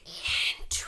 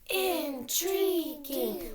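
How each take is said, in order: First: It is said in a forceful whisper. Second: It is said loudly, like a cheer.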